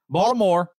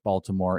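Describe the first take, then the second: First: It is said in a local Baltimore accent. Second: It is said in a general American accent.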